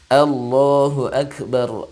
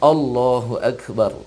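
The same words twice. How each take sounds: First: The first vowel sounds open, like 'a'. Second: The first vowel sounds rounded, like 'o'. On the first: The speaker calls it right. "mesti bunyinya Allah, a" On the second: The speaker calls it wrong. "tidak o. Bukan Allahu Akbar"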